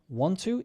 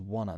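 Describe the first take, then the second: First: Both words are said fully with a clear t. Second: The words run together into one short word.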